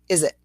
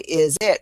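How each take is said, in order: First: The two words are joined together. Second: The two words are said separately. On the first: The speaker calls it right. "we say is it, and we pull our fingers together" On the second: The speaker calls it wrong. "we don't say is it"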